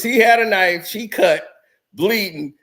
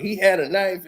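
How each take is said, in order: First: Panicked report. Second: Said in the usual way. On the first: Retold or imitated. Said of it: "that's all I hear is". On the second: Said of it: "he's like".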